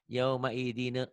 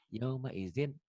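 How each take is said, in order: First: An extra 'e' vowel follows the final consonant. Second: The final consonant ends without any added vowel. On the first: The speaker calls it wrong. "kalau ada huruf matinya masih ada e-nya ya" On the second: The speaker calls it right.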